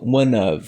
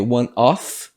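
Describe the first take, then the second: First: The word 'of' ends with a v sound. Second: The word 'of' ends with an f sound. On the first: "os nativos eles utilizam um som de V" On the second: "Em vez de fazer one of"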